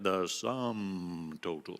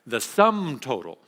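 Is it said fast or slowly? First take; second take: slowly; fast. First: It is said slowly. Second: It is said quickly.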